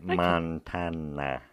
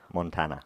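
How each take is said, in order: First: The word is said much more slowly. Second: The word is said at normal speed.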